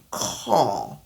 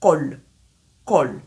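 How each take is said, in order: First: "Call" with a flat open vowel, no rounding; mispronounced "Call"; wrong call. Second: "Call" with a dark L at the end; "Call" said short and clear, L sounded; correct call. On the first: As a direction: call said "caw" with open mouth. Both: Shown as a demonstration. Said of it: "Je ne dis pas call".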